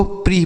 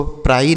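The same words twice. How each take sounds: First: "प्री" rhyming with "free"; PRE read as "pree". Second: "प्राई" rhyming with "fry"; PRE misread as "pry". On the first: Teacher giving pupils the PRE reading, "प्री" with long ee. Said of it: "इसको प्री पढ़ना है". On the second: Teacher showing how not to read PRE, "प्राई" with eye sound. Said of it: "इसको प्राई नहीं पढ़ना है". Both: Shown as a demonstration.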